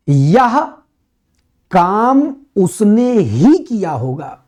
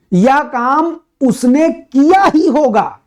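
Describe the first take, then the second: First: Slow, with उसने pressed hard and held; stress on उसने. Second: Slow, किया ही raised and pressed, pitch up high; stress on किया. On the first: Teacher showing students the stress on उसने. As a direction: lean on उसने as the one who did it. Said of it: "इसका अर्थ है कि उसने पर जोर है". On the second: Teacher contrasting for students, stress on किया. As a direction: push the weight onto किया, the doing itself. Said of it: "करने पर जोर दे दिया". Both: Shown as a demonstration.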